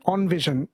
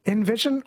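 First: "envision" starting like "on", falling at the end; ON pronunciation. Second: "Envision" starting with EN, rising at the end; EN pronunciation. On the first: Host testing the debate, on-VISION. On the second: Host testing the debate, en-VISION. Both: Shown as a demonstration. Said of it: "No one says on".

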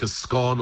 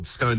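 First: SCONE rhyming with gone; short-O scone. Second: SCONE rhyming with bone; long-O scone. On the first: Word expert offering both names to listeners, short-O SCONE. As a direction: say SCONE as "skon". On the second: Word expert offering both names to listeners, long-O SCONE. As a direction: say SCONE as "skohn". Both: Shown as a demonstration. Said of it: "looks like a scone or scone".

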